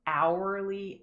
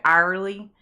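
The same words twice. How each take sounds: First: HOURLY as "OW-er-lee", with a full OU sound; careful standard pronunciation. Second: HOURLY as "AR-lee", with a long Southern I sound; Southern pronunciation. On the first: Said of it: "how painful it is for me to say hourly". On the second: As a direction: say "hourly" the hometown way, like "ARR-ly", loud. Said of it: "Because we say hourly". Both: Shown as a demonstration.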